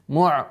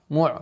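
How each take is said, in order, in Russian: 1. Хамза переходит в глубокий гортанный звук айн. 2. Хамза переходит в глубокий гортанный звук айн.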